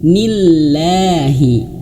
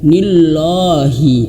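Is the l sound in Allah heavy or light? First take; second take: light; heavy. First: The l in Allah is light and thin. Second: The l in Allah is heavy and thick. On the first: The speaker calls it right. "Berarti dia tipis" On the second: The speaker calls it wrong.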